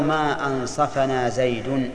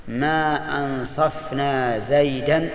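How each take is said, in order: First: Slow, measured ما أنصفنا زيد, "ansafa-na Zaydun"; short "a" after the ف in أنصفنا, ending زيد on "-un"; nominative Zayd. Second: Slow, measured ما أنصفنا زيدا, "ansaf-na Zaydan"; no vowel after the ف in أنصفنا, ending زيدا on "-an"; accusative Zayd. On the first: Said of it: "أو". (ما أنصفنا زيد بفتح الفاء ورفع زيد، ببطء) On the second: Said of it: "إذا قلت". (ما أنصفنا زيدا بسكون الفاء ونصب زيد، ببطء) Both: Shown as a demonstration.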